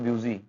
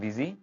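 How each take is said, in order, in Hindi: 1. पहला अक्षर 'byoo' जैसा सुनाई देता है। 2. पहला अक्षर 'biz' जैसा सुनाई देता है। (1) "इट्स नॉट ब्यूजी" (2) "नेक्स्ट है बिजी"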